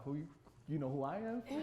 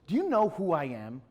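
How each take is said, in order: First: Retold Chicago street comeback, not raised; Chicago street talk. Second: Louder, puffed-up retold challenge; self-important challenge. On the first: Artist answering the big man, mild Chicago attitude. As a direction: throw it back with a touch of Chicago. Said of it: "I switch in that Chicago". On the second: Big man confronting the artist, self-important challenge. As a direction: demand recognition, hitting it hard.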